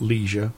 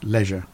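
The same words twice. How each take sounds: First: The word is said with an American pronunciation. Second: The word is said with a British pronunciation. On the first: The speaker calls it wrong. "Not leisure" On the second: The speaker calls it right. "it's leisure"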